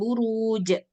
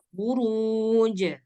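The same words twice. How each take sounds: First: The word ends with an added glottal stop. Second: The word ends on a released j sound. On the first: The speaker calls it wrong. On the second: The speaker calls it right.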